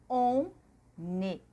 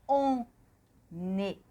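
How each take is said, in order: Both takes have the same delivery.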